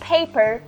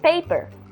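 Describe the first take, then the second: First: The p is released with a puff of air. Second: The p is released without a puff of air. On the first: "we don't say mm" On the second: "Brazilians would say paper, no aspiration"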